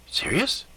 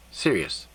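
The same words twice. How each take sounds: First: "Serious?" rising high at the end; questioning. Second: "Serious." low and falling; confirming. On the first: Man checking with the elf, "Serious?" as rising question. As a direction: ask "Serious?" with a high upward lift. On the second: Elf confirming to the man, "Serious." as falling statement. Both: Acted.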